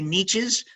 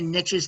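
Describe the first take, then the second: First: Niches is said in the overseas pronunciation. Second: Niches is said in the speaker's domestic pronunciation. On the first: "Overseas, they say niches" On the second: "they don't say niches"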